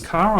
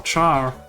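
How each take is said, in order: First: It begins with a hard k sound. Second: It begins with a ch sound. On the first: The speaker calls it wrong. "Car sounds weird" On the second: The speaker calls it right. "like in chart"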